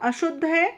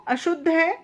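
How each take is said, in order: Both takes have the same delivery.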